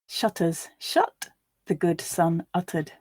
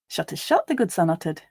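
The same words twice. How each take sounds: First: The line is read slowly. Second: The line is read at natural speed. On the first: "once slowly for you to grasp the words" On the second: "and then once at a more natural pace"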